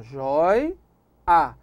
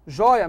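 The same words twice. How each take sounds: First: "Jói" then a clear pause before "a"; split into syllables. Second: Said in the usual way. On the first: Shown as a demonstration. Teacher spelling out syllables to the class, "Jói" pause "a". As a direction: break "Jói, a" into two beats with a gap. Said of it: "Priorize o ditongo". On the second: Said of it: "a mesma coisa".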